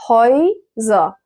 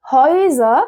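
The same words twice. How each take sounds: First: Häuser slowly, split into two syllables. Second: Said in the usual way. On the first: Shown as a demonstration. Teacher showing learners a new word, slow split Häuser. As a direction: break Häuser apart with a gap after "hoy".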